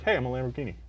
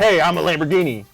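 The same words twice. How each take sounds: First: It is said in a calm, understated way. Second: It is said in a showy, over-the-top way.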